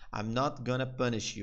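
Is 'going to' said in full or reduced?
reduced. 'Going to' is reduced to 'gonna'.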